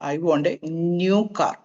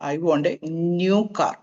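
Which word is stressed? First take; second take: new; new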